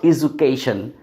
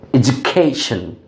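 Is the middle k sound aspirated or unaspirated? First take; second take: unaspirated; aspirated. First: The middle k sound has no puff of air. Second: The middle k sound has a puff of air. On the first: The speaker calls it wrong. "not education" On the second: The speaker calls it right. "we have to go through aspiration here"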